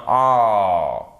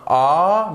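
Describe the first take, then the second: First: A held long, between "ah" and "oh"; long, falling A as in English "law"; long A vowel. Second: A as a plain open French "ah"; the contrasting, unrounded A; wrong A vowel. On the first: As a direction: draw out A, rounding it slightly toward O. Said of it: "C'est entre le A et le O". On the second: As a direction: say A open, not rounded toward O. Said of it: "qui n'est pas un A". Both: Shown as a demonstration.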